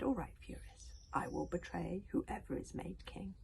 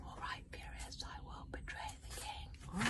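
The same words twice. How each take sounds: First: Said in the usual way. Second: Whispered, slow and soft; hushed whisper. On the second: A narrator's reading. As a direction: breathe the line out slow. Line reread hushed.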